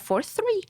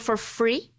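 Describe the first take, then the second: First: The word begins with a th sound. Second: The word begins with an f sound. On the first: This is the intended word. "E era for three" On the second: This imitates how another person said it. "o cara falou assim, ó"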